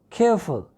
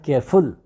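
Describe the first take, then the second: First: The stress is on the first syllable. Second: The stress is on the second syllable. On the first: The speaker calls it right. "stress will always be on the first syllable" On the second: The speaker calls it wrong. "not careful"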